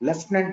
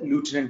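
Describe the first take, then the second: First: The first syllable sounds like 'lef'. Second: The first syllable sounds like 'loo'. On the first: "pronunciation it differs అమ్మా" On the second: "లేకపోతే లూటినెంట్ general అంటారు కొంతమంది"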